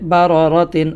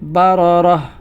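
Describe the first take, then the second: First: The word ends with a full 'tin' sound. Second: The word ends with a soft 'h' sound. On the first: The reading continues into the next word. "না থেমে যদি আমরা এটির পরবর্তী শব্দের সাথে মিলিয়ে পড়ি" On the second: The reader stops at this word. "থামতে হলে হা পড়তে হয়"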